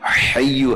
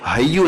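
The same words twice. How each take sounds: First: It begins with a harsh, throaty h sound. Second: It begins with a plain, light h sound. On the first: The speaker calls it right. "हय्यु है ... ये हलवे वाला हा है" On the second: The speaker calls it wrong. "ये हय्यु नहीं है ... दो दो दो चश्मे वाला हा नहीं है"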